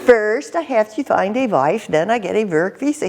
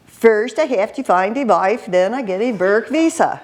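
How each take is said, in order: First: Put-on repeating the Swedish-accented line; mock Swedish lilt, again in character; light Swedish accent impression. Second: Imitating a Swedish-accented English speaker; mock Swedish lilt on English; light Swedish accent impression. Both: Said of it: "speaking English with a Swedish accent".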